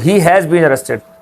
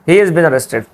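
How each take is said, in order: First: He and has are said as separate words. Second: He and has merge into one short syllable.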